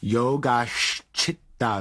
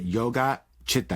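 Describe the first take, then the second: First: The end of Yoga softens and flows into Chitta. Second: The air stops with a glottal catch after Yoga. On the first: The speaker calls it right. "there's a softening at the end of yoga into the next" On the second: The speaker calls it wrong. "you can hear like the air stops"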